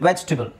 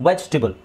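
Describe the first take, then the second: The two takes are said the same way.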